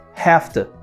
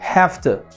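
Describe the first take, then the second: First: The word 'to' is reduced to a t. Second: The word 'to' is reduced to a t.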